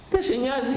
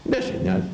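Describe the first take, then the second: First: Higher rebuke. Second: Said in the usual way. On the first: Real, not acted. Repeat much higher.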